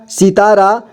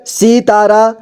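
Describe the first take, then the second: First: Said in the usual way. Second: सितारा as सि-ता-रा; syllable by syllable. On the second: Shown as a demonstration. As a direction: sound out सितारा in three parts. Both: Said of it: "एक ही बार में पढ़ेंगे".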